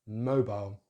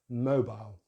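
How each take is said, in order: First: The last syllable has a diphthong. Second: The same.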